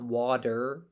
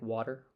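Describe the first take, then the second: First: The middle consonant is a clear, crisp T. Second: The middle consonant is a quick D-like flap. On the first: "It's not water" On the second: "the alveolar flap, the D sound, like for a T"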